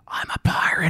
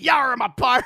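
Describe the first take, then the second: First: It is whispered quietly. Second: It is said in a put-on pirate voice.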